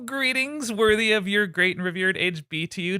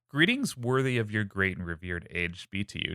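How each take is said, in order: First: It is read in a gushing, fanboy voice. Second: It is read in a plain storytelling voice.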